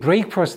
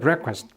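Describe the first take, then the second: First: It is said as two separate parts. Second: It is said as one blended word. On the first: The speaker calls it wrong. "어떤 학생이 breakfast 이렇게 하는 사람이 있는데 아니고요" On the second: The speaker calls it right. "합쳐지면서 breakfast 이렇게 발음을 해야지"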